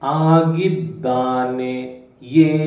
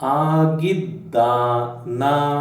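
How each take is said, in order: First: The word is said with its full ending. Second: The word is said with a clipped ending. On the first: It is the formal grammatical form. "This is grammatical" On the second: It is the everyday spoken form. "people have reduced this to this, and this is spoken"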